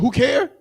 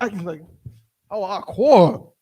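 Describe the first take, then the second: First: It is pronounced as one-syllable who and care. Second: It is pronounced with two-syllable hawa and quar. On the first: This is how other people pronounce it. The speaker calls it wrong. "They don't say Hawa'a, they say who, and they don't say quar, they say care" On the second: This is the speaker's preferred ancient pronunciation. The speaker calls it right. "which sounds more ancient"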